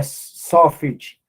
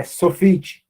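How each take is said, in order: First: Sofit stressed on its first syllable, SO-fit. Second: Sofit stressed on the final syllable, so-FIT; corrected so-FIT stress in Sofit; stress on last syllable. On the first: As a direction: draw out the SO of Sofit, let fit drop. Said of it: "é Sofit". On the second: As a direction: land firmly on the fit of Sofit. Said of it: "todas elas são oxítonas". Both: Shown as a demonstration.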